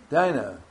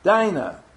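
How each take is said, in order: First: Said in the usual way. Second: Dinah said high and loud, long i; name repeated loudly. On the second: Shown as a demonstration. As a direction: echo Dinah back clearly, DYE-nah. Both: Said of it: "Say it out loud".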